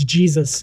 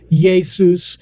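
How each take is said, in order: First: The name is said with an English pronunciation. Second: The name is said with a Latin pronunciation. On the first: This is how the English say the name. "the English got it and it's Jesus" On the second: This is how the Romans said the name. "the Romans started calling him Jesus"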